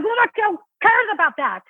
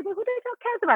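First: Much higher, full-throated scornful "Who the hell cares about that?", committed; dismissive for real. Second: Much higher and softer, timid cutesy "who the hell cares about it?"; cutified line. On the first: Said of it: "just deliver". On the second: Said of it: "before when I would say". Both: Shown as a demonstration.

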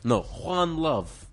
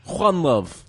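First: Put-on slow, high Serbian accent, Juan Love drawn out as a correction. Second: Put-on loud, high Serbian accent, the name said as Juan. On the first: Co-host correcting his own take, slow Serbian accent. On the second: Co-host repeating the sign-off in a loud Serbian accent. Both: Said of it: "I do the accent".

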